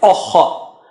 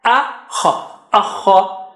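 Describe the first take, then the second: First: Teacher showing the mistake in akha; wrong vowel. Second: Akha with an open a and a rasped kh; teacher modelling the correct akha. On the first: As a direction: show the rounded akha as the error. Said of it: "Don't say". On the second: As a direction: rasp the kh in akha. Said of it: "Don't say akha". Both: Shown as a demonstration.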